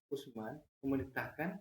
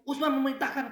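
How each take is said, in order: First: It is spoken in a Javanese accent. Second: It is spoken in a Batak accent. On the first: "itu logat Jawa" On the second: "Logat Batak beda lagi"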